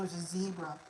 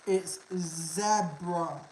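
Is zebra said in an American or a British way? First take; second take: American; British. First: Zebra is said the American way. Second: Zebra is said the British way. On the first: The speaker calls it wrong. "They just can't pronounce it correctly, so they have to say, oh, it's a zebra" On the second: The speaker calls it right. "that's how you say it"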